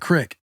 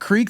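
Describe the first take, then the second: First: The vowel is a short i sound. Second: The vowel is a long ee sound. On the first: This is how people in one region say it. "in Nebraska, they call it a crick" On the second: This is the usual way of saying it. "instead of creek"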